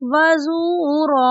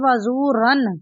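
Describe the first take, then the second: First: The word ends with a long a vowel. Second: The word ends with an n sound. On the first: The speaker calls it right. "यानी रा को हम अलिफ मद्दा की तरह पढ़ेंगे वज़ूरा" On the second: The speaker calls it wrong. "अक्सर लोग इसको पढ़ते हैं वज़ूरन"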